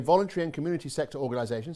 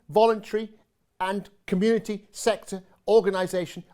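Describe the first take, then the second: First: The words flow smoothly without any breaks. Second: The words come out choppy, with small breaks. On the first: "See, I can be quite fluent when I want to be" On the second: "It's always good to say that with slightly staccato feel"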